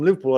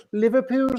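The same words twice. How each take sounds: First: Said in the usual way. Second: High-pitched put-on Scouse; Liverpool accent. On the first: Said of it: "I'd say". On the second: Shown as a demonstration. Imagining being from Liverpool, put-on Liverpool accent. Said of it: "putting on the Liverpool accent".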